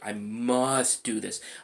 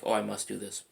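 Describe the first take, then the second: First: It is said forcefully, with strong emotion. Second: It is said casually, without conviction.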